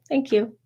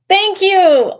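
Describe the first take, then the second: First: It is said calmly, with little energy. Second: It is said with bursting, explosive energy.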